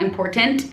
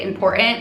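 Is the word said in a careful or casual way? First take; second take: careful; casual. First: The word is said carefully, with every sound clear. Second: The word is said casually, in a relaxed everyday way. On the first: The speaker calls it right. "not important" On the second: The speaker calls it wrong. "I say important"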